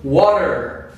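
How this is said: It is said with an American accent.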